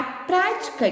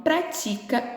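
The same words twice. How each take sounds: First: "prática" stressed on its first syllable, PRÁ-ti-ca. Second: "pratica" stressed on the penultimate, pra-TI-ca; stress on middle syllable. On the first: Teacher reading the first example sentence, stressing PRÁ in "prática". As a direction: hit the PRÁ in "prática", slowly. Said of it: "ela recebeu o acento no pra". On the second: Teacher reading the second example sentence, stressing TI in "pratica". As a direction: lean on the TI in "pratica", slowly. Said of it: "a sílaba tônica é a penúltima". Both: Shown as a demonstration.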